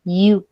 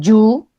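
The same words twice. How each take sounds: First: "you" gliding in softly like "iu", no J sound; soft Y onset. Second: "you" starting with an explosive J, like "joo"; hard Y onset. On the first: Teacher corrects how students say it, soft Y. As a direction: start "you" on a smooth I glide into U. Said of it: "Se dice you". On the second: Teacher imitates the mistake she hates, explosive Y. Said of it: "odio cuando me dicen you". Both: Shown as a demonstration.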